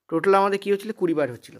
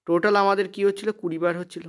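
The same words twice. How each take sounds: The two takes are said the same way.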